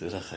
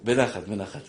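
First: Soft, lower, calm בנחת; a quiet soothing בנחת; calmly. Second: Said in the usual way. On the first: Shown as a demonstration. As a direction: say בנחת gently, as if calming.

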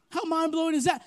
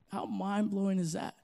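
First: Higher and louder on that; raised repeat. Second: Said in the usual way. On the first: Shown as a demonstration. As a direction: repeat it with rising force.

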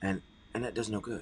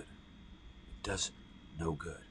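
First: Said in the usual way. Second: Much softer whispered echo; a hushed whispered repeat for weight. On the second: Shown as a demonstration. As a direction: drop it to a whisper. Repeated as a near-silent whisper.

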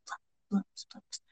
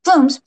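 First: Whispered echo trailing away; hushed, voiceless echo. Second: Loud ringing echo, then fading; booming repeat that drops away. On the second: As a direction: call it out higher like an echo. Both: A narrator's reading. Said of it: "echo around the hall".

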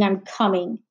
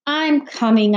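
First: Grumbled. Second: Reluctant call. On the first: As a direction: grumble "I'm coming" under your breath. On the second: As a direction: answer mom reluctantly, calling it out. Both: Acted. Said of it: "Natalie grumbled".

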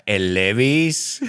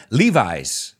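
First: "Levi's" said the Spanish way, LEH-bees; drawn-out Spanish "Levi's", ending in "bees"; Spanish pronunciation. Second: "Levi's" said the English way, LEE-vize; English "Levi's", long ee then eye; English pronunciation. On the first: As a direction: stretch "Levi's" slowly with Spanish vowels. Spanish versus English brand name. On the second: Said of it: "¿Cómo se diría, Alberto?". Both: Shown as a demonstration.

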